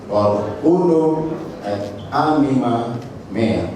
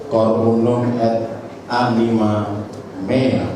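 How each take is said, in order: No difference in how they are said.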